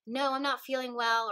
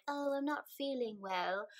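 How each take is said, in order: First: Said in the usual way. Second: Slightly higher, softer put-on British accent. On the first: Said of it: "had a British accent there, but". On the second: Telling friends an excuse to stay home, British accent. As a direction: slip into a mock British excuse. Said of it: "had a British accent there".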